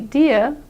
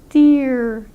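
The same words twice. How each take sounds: First: It ends without an R sound. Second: It ends with an R sound and rounded lips. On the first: "If you say only deer, that's correct in British English" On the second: "that's what will give you the R sound"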